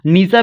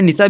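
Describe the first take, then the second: First: निशा with a long first vowel, "nee-saa"; long i variant. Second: निशा with a short first vowel, "ni-saa"; short i variant. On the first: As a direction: hold the ee in the first syllable of निशा. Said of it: "आप बड़ी की मात्रा का भी". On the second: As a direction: keep the i in निशा quick and short. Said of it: "निशा भी होता है". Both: Shown as a demonstration.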